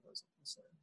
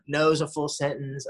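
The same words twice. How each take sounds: First: Hushed, mocking repeat of mom's phrase; whispered mock. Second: Lightly imitating his mother's firm line; a hint of mom laying down the rule; mock mom. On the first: Son mocks his mother's boundary in a hushed aside. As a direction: breathe it out as a sneering aside. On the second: Son mocking his mother's new boundary, lightly imitated.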